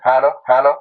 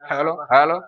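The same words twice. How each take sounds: First: The voice comes out amplified through the speaker. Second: The voice is heard without any amplification. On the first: "আমি এটা চাপ দিলাম, ... শব্দ হইতেছে" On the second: "এখন এই যে বন্ধ করে দিলাম, ... আর হবে না"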